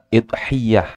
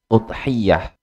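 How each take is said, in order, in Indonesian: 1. Diawali dengan i dan y-nya digandakan. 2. Diawali dengan u dan y-nya digandakan. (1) "hamzahnya di kasroh" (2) "hamzahnya di dhammah, ya-nya di tasydid"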